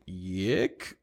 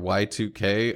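First: The name is said as one syllable, 'yick'. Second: The name is said as 'Y two K'. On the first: "calling it Yik is kind of funny" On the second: "it's pronounced Y2K"

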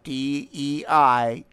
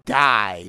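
First: It is said as three separate letters. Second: It is said as one word, like die. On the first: The speaker calls it wrong. "not DEI" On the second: The speaker calls it right. "We call it DEI, because it's cultural Marxist attempt at murdering our culture"

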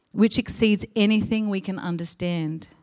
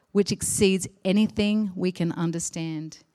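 Both takes have the same delivery.

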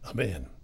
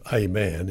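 First: The article is a reduced 'uh' sound. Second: The article is a full 'ay' sound. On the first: The speaker calls it right. "it's a man" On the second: The speaker calls it wrong. "attach the letter A as an A onto the next word. Instead of a man"

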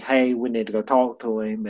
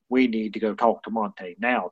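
First: It is said in a friendly way. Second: It is said in a stern way.

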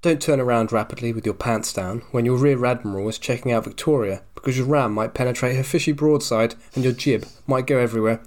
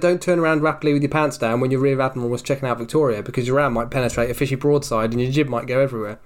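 First: It is read slowly. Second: It is read at a normal pace.

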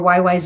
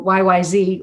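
First: The last letter is said the Canadian way, 'zed'. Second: The last letter is said the American way, 'zee'.

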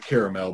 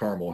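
First: Caramel is said with a non-Midwestern pronunciation. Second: Caramel is said with a Midwestern pronunciation. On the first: This is how people elsewhere say it. "y'all pronounce it caramel" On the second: This is how people here say it. "we call it caramel here in the Midwest"

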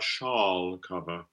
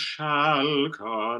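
First: The vowel in 'shall' is a darker back vowel. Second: The vowel in 'shall' is a front 'cat' vowel. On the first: The speaker calls it wrong. "not shall cover" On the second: The speaker calls it right. "that ah, this mm-hmm. A-E ligature symbol"

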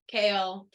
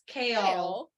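First: The name is said as one syllable. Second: The name is said as two syllables.

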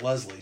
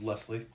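First: The middle consonant is a z sound. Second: The middle consonant is an s sound. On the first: The speaker calls it wrong. "She gets really mad if you pronounce it with a Z" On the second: The speaker calls it right. "it's actually with an S"

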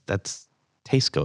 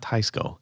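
First: The first syllable rhymes with the start of Seiko. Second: The first syllable has a different vowel from Seiko. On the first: The speaker calls it right. "that's spelled like Seiko watches" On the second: The speaker calls it wrong. "It's not"

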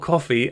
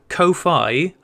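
First: The first vowel is short, like 'coffee'. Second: The second syllable rhymes with 'high'. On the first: "as in the drink" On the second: "as in lo-fi"

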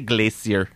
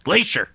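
First: It is said with a British pronunciation. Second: It is said with an American pronunciation.

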